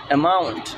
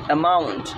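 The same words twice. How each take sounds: The two takes are said the same way.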